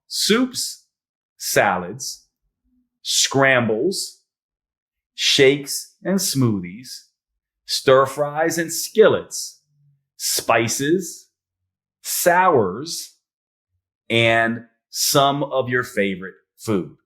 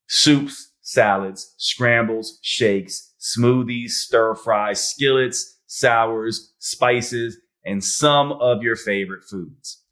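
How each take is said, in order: First: The list is said slowly. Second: The list is said at normal speed.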